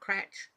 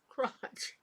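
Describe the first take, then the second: First: The vowel is a flat 'a' as in cat. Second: The vowel is an open 'ah' sound. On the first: The speaker calls it wrong. "Not cratch" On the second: The speaker calls it right.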